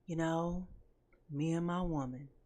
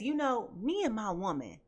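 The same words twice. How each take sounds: First: It is said in a put-on singer's voice. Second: It is said in the speaker's normal voice.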